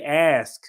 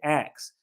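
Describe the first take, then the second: First: The word ends with an 'sk' sound. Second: The word ends with a 'ks' sound. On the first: "she didn't say ask" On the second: "she said ax. ... that's associated with a Southern dialect"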